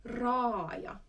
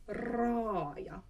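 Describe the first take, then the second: No difference in how they are said.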